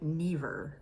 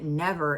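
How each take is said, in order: First: The first vowel is a long ee sound. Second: The first vowel is a short eh sound. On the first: "they have like an E sound instead of an eh sound" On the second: "the word never isn't never"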